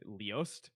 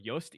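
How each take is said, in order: First: The name begins with an audible L sound. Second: The name begins without any L sound.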